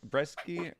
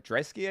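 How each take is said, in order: First: The name begins with a B sound. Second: The name begins with a D sound. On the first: The speaker calls it wrong. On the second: The speaker calls it right.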